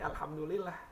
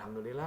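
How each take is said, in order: First: It is said warmly, with heartfelt gratitude. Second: It is said flatly, with grudging resignation. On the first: The speaker is truly thankful for what was given. The speaker calls it right. "Ketika kita bersyukur" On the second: The speaker accepts it only because there is nothing better. The speaker calls it wrong. "nggak ada powernya gitu, nggak sesuai dengan konteksnya"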